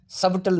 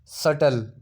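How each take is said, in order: First: सबटल with the b sounded; सबटल with a clear b; wrong pronunciation. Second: सटल with a silent b; सटल, the b dropped; correct pronunciation. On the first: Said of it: "सबटल नहीं है". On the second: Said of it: "ठीक है, सटल". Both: Shown as a demonstration.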